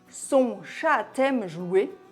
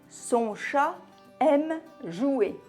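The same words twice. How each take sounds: First: A T sound links chat to aime. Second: No T sound links chat to aime. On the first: The animal sounds like a female cat. The speaker calls it wrong. "Si on faisait la liaison" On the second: The animal is a male cat. The speaker calls it right. "Après un nom singulier"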